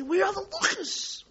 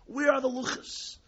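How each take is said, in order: First: A much higher, anguished cry of loss; desperate cry. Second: Said in the usual way. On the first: Acted. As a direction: cry out for the lost tablets.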